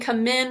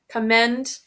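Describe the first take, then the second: First: The second syllable has a short 'ih' vowel. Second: The second syllable has a short 'eh' vowel. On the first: The speaker calls it wrong. "it sort of sounds like you're saying commend, it, it, it" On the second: The speaker calls it right. "instead of eh, commend"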